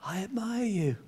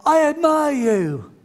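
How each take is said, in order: First: Soft, distant answering voice; echo. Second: High, slow, raised call; dad's son calls out kindly to the echo. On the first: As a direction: let it come back faint. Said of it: "And the voice came back". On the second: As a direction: send praise across the valley. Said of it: "his dad shouted out". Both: Retold or imitated.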